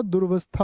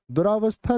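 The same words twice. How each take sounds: First: दुर्वस्था said "dur-vastha", no aa; correct pronunciation. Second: दुरावस्था with long aa, "du-raa-vastha"; wrong pronunciation. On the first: Teacher correcting students, दुर्वस्था said dur-vastha. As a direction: close दुर्वस्था's first syllable on r. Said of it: "दुर्वस्था होता है". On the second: Teacher showing students the error, दुरावस्था said du-raa-vastha. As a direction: say दुरावस्था with an extra raa syllable. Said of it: "दुरावस्था नहीं होता". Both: Shown as a demonstration.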